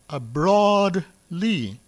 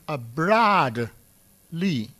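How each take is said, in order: First: Broad is said with its usual modern vowel. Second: Broad is said with a short a, like 'brad'. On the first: This is the present-day pronunciation. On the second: This is how people said it at the time.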